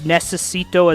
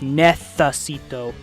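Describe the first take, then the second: First: The c is pronounced like s. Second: The c is pronounced like th.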